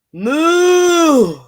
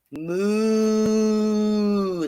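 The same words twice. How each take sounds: First: A long moo, louder and higher; hammed-up storybook cow. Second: A long, softer moo; reader's quieter retake of the moo; gentler cow moo. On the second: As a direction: let the cow sigh it out calmly. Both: A narrator's reading. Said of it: "That's a little better".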